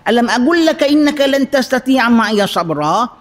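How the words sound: The voice is harsh and scolding. One prophet is scolding the other. The speaker calls it wrong. "Takkanlah Nabi Khidir garang gitu dengan Nabi Musa"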